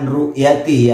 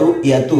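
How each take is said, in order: First: The word ends with an i vowel. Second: The word ends with a u vowel. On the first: The word is treated as genitive. The speaker calls it wrong. "bukan ru'yati" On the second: The word is in the nominative case. The speaker calls it right. "Jadi harus wa ru'yatu"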